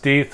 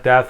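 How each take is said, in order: First: The vowel is a long 'ee', rhyming with teeth. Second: The vowel is a short 'e', as in death. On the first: The speaker calls it right. "it's pronounced Death ... rhymes with teeth" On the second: The speaker calls it wrong. "not Death like I always thought"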